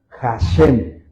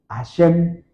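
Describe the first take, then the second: First: The word begins with an audible breathy H sound. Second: The word begins with a vowel, the H silent. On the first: The speaker calls it right. "Pero los judíos cuando hablan de, del nombre H A S H E M, no dicen Hashem, sino dicen Hashem" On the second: The speaker calls it wrong. "se nos dijo que la palabra H no sonaba o no suena"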